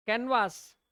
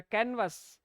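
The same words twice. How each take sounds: First: कैनवास with a long drawn second a, kan-vaas; long a canvas. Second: कैनवस with a short second vowel, KAN-vus; correct canvas. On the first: Teacher to students, the common long-a pronunciation. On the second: Teacher to students, modelling the correct short-vowel pronunciation. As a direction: say कैनवस short and clipped at the end, stress on KAN. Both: Shown as a demonstration. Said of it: "सही pronunciation क्या है?".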